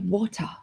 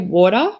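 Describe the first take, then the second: First: The middle t is a clear, crisp t. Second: The middle t sounds like a soft d. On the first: "I don't say water" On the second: "T's for me are D's. Like I say water"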